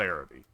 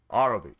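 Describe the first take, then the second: First: "Arabi" opening like the word air; AIR-abi pronunciation. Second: "Arabi" opening on a broad AH; AH-rabi pronunciation. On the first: Player showing the name to avoid, "Arabi" said AIR-uh-bee. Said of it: "not Arabi". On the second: Player repeating the corrected faction name, "Arabi" said AH-ruh-bee. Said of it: "I should start calling them". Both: Shown as a demonstration.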